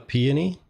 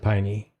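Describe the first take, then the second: First: The name is said with three syllables. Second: The name is said with two syllables. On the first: "I'm going to guess uh" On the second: "or is it"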